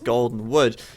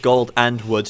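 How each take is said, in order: First: The 'and' is reduced, sounding like 'golden'. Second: The 'and' is said clearly as a separate word. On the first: The wood is made of gold. The speaker calls it wrong. "sounds like uh, his wood might be made of gold the way I pronounced it" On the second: Two separate resources, gold and wood. The speaker calls it right. "I said gold and wood"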